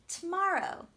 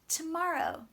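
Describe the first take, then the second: Both takes have the same delivery.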